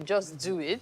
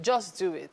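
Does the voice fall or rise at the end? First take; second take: rises; falls. First: The voice rises at the end, like a question. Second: The voice falls at the end, like a statement. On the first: It asks whether one should really do it. The speaker calls it right. "because it's actually a question" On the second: It is a plain command. The speaker calls it wrong. "I didn't even s- pronounce it where it should be"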